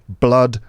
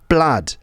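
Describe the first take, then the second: First: The vowel sounds like a neutral 'uh'. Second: The vowel sounds like an open 'ah'. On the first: "So uh sounds like in blood" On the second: "can sound more like an ah sound"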